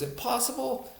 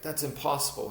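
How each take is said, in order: First: Put-on "Impossible?" thrown back in a thick Thai accent, pitch leaping high; incredulous Thai accent. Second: Said in the usual way. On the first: Thai trainer scoffing at a doubting student, thick Thai accent, incredulous. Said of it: "with his thick accent". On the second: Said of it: "And I was like".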